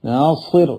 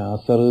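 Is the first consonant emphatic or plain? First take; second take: emphatic; plain. First: The s sound is emphatic and heavy. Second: The s sound is plain and light. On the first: This is how the name is written and given. The speaker calls it right. "നാസിർ എന്ന് പേരിടും" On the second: This is how people casually call the name. The speaker calls it wrong. "പക്ഷെ നാസർ എന്ന് വിളിക്കും"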